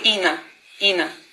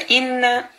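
First: The n sound is short and single. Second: The n sound is held noticeably longer. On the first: The speaker calls it wrong. "если бы мы не сказали вот чуть-чуть дольше нун, было бы Ина" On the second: The speaker calls it right. "а Инна чуть-чуть как бы дольше"

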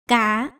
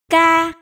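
First: The syllable is said on a dipping tone. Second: The syllable is said on a level tone. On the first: "hỏi" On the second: "cô sẽ được tiếng ca"

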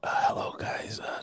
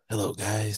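First: It is spoken in a soft whisper. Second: It is spoken in a normal, voiced tone. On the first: The speaker calls it right. "You're right" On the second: The speaker calls it wrong. "You're not even whispering"

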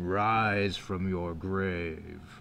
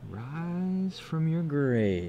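First: It is said in a put-on video game voice. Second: It is said in his normal voice.

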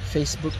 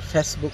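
First: The first vowel is a long 'ay' sound. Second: The first vowel is a short 'eh' sound. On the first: The speaker calls it right. "You should be saying ... Facebook" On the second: The speaker calls it wrong. "Don't say ... Facebook"

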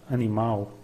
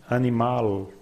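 No difference in how they are said.

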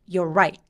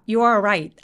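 First: You and are merge into one syllable. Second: Both words you and are are said fully. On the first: The speaker calls it right. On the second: The speaker calls it wrong. "아니고"

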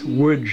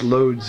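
First: The name is said with Polish sounds. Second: The name is said with American English sounds. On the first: "but it's Łódź in Polish" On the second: "pronounced Lodz in American English"

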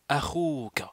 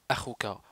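First: The vowel is drawn out and lengthened. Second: The vowel is short, not lengthened. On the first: The speaker calls it right. "on dit" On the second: The speaker calls it wrong. "Au lieu de dire"

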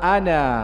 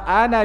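First: The final vowel is long, with a stop after it. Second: The final vowel is short, flowing into the next word. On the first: The reader pauses on this word. "ketika kita berhenti di situ maka alif tetap terbaca" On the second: The word is read connected to what follows. "dibaca pendek, dihilangkan alifnya"

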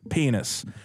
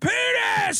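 First: The word is said at a soft volume. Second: The word is yelled at full volume. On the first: "one kid goes"

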